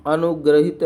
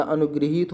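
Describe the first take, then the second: First: अनुग्रहित said "anugrahit", with a plain short a after gr; the mistaken form अनुग्रहित, gr-a-hit; wrong pronunciation. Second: अनुगृहीत said "anugriheet", with ri after g; the right form अनुगृहीत, g-ri-heet; correct pronunciation. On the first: Teacher says the common mistake अनुग्रहित as "anugrahit". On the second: Teacher gives the correct अनुगृहीत as "anugriheet". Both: Shown as a demonstration. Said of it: "अनुग्रहित नहीं होता".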